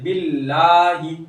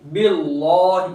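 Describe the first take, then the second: First: The L is said thin and light. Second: The L is said full and heavy. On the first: The speaker calls it right. "इसको बारीक पढ़ेंगे" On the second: The speaker calls it wrong. "ऐसे इसको पूर्ण नहीं कर सकते ... ये गलत हो जाएगा"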